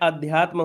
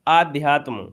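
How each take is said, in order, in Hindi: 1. पहला स्वर छोटा a है। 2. पहला स्वर लंबा aa है। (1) "बड़ा आ नहीं लगा होता है" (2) "क्या दिया है?"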